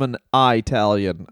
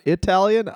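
First: "Italian" starting with a long EYE sound; old-fashioned mispronunciation. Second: Said in the usual way. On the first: Retold or imitated. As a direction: say "Italian" as eye-TAL-yun. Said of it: "I don't know what pronouncing". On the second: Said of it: "not Italian, I first".

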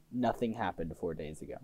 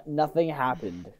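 First: Low mutter. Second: Said in the usual way. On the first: Acted.

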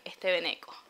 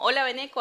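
First: "Este veneco" said lower and softer with contempt; contemptuous veneco. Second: "Hola, veneco" said light, friendly and a bit higher; a friendly greeting with a smile in the voice. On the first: Showing that the tone changes the word, contemptuous. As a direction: spit out "veneco" as a put-down. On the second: Showing that the tone changes the word, friendly. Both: Shown as a demonstration. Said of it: "no es lo mismo".

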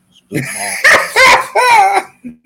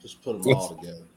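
First: High, loud laughing yell; laughing shout. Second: Said in the usual way. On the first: Real, not acted.

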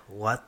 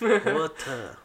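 First: Said in the usual way. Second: Put-on "Water" said higher, with a falling end like an American accent; mock American water. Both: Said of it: "they love it when I say water".

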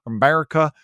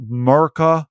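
First: Said in the usual way. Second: "America" said as "Merica", no A at the start; "America" clipped to "Merica"; dropped A. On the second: Shown as a demonstration. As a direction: drop the first A of "America". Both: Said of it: "without pronouncing the A at the beginning".

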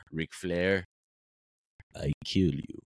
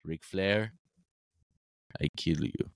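First: Low, halting giant's wrestling promo; Giant Gonzalez promo. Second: Low, flat awkward wrestling promo; deadpan threat in broken English; Giant Gonzalez promo. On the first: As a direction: growl it out slowly in broken English. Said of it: "cut a promo on Ric Flair". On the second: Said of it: "he just goes". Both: Retold or imitated.

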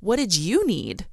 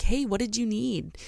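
First: Slow question leaning on "you"; stress on YOU. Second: Said in the usual way. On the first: Retold or imitated. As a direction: throw it back, drawing out "you". Husband throws the question back.

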